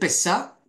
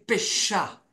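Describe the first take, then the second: First: The middle consonant is a plain s sound. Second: The middle consonant is an sh sound. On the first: It means a step or progress. "Ou bien c'est Pessa" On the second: It means sin or transgression. "ça peut se prononcer Pesha"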